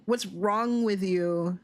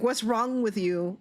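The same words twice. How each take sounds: First: Slow, leaning hard on "wrong"; slow emphatic repeat. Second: Said in the usual way. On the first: Shown as a demonstration. To clam-juice drinkers, a slow disbelieving repeat. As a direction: drag it out and punch "wrong" in disbelief. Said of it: "Like, what's wrong with you?".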